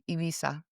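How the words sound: It is pronounced the way Latin Americans say it. The speaker is from Latin America. "from Latin America, we just say Ibiza"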